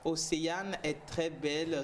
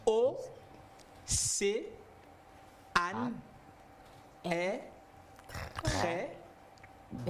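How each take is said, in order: First: The name is said smoothly in one flow. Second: The name is split into separately stressed syllables.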